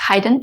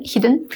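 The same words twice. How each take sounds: First: HIDDEN mispronounced with a long i, like "hide-en". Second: Said in the usual way. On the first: Real, not acted. Correcting herself on a video, HIDDEN slipped as "hide-en". Slip corrected right after.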